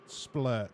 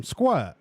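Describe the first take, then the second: First: "Splurt" with a careful spl start; corrected name. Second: "Squirt" with a clear skw start, rhyming with dirt; wrong name Squirt. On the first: Streamer correcting the baby's name, carefully saying "Splurt". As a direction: slowly set it right as "Splurt". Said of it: "I said splurt". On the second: Streamer misnaming the viewer's baby, saying "Squirt" by mistake. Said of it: "Did I call him Squirt?". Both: Shown as a demonstration.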